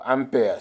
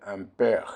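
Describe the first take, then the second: First: "ampere" said the English way, without the throaty r; anglicised "ampere", ending open; alternative pronunciation. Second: "ampere" said the French way, with a throaty final r; French-style "ampere", ending on a rasped r; French pronunciation. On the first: Teacher offering what some prefer, "ampere" in English pronunciation. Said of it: "some prefer to say ampere". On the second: Teacher naming the unit of current, "ampere" in French pronunciation. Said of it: "Ampere is a French". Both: Shown as a demonstration.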